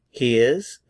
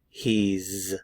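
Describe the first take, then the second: First: It is said in full as two words. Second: It is contracted into one syllable.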